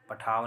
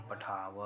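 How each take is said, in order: First: पठाव ending on a closed v, no अ after it; final vowel dropped. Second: पठाव with an audible अ after the व; final vowel sounded. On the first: Teacher showing students the mistake, पठाव without its final अ. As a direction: say पठाव as "pathaav", cut off at व. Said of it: "पठाव नहीं". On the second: Teacher correcting students, पठाव with its final अ fully pronounced. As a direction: say पठाव as "pathaa-va", last syllable sounded. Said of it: "व में लगा हुआ अ". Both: Shown as a demonstration.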